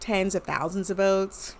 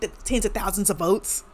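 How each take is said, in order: First: It is said quietly and in an understated way. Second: It is said loudly, animated and theatrical. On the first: It sounds politely condescending. "There's the English condescension" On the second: It sounds dramatic and outraged. "much more louder and like animated and theatrical"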